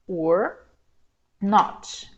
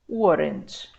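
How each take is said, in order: First: Two separate words, with 'not' said in full. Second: One contracted word, with 'not' reduced to n't. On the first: "na negativa" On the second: "contraído, eu vou dizer weren't"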